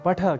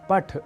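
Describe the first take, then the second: First: The final short vowel is pronounced. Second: The final short vowel is dropped. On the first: The speaker calls it right. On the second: The speaker calls it wrong.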